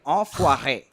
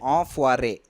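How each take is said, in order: First: The R is a French uvular R. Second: The R is an English-style R. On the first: "You have to do that rolling R, like" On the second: "I'll say it with the normal English accent"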